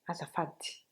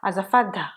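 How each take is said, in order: First: The word ends in a breathy i vowel. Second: The word ends in an open a vowel. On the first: The speaker calls it right. "ça se prononce comme un I, mais un peu expiré" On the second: The speaker calls it wrong. "C'est pas azafada"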